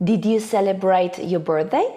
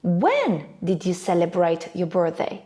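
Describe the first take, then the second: First: "birthday" swept up at the end; yes-no question tune, rising on "birthday"; rising intonation. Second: Wh-question tune, falling on "birthday"; falling intonation. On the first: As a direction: let the voice climb on birthday. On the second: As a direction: hit When, let birthday fall. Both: Shown as a demonstration. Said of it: "Let's see a few more examples".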